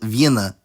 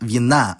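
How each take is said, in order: First: The stress is on the first syllable. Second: The stress is on the second syllable. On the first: It means wines. "nominative plural form" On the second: It means of wine. "genitive singular form"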